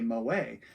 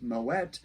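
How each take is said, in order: First: The final T is silent. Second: The final T is clearly sounded. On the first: It follows usual French pronunciation. "we would not pronounce this the T at the end of Moet. We would say Moet" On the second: It follows the pronunciation of the family's ancestral language. "they would actually pronounce the T, Moet"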